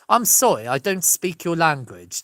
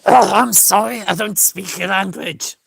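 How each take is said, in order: First: It is spoken with an English accent. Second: It is spoken with a Dutch accent. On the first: "That's how an English person would say it" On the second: "That's how the Dutch would say it"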